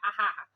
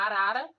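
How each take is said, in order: First: The middle consonants are breathy H-like sounds. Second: The middle consonants are tapped R sounds. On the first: "ele acaba substituindo para o R forte" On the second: "se tem a palavra arara"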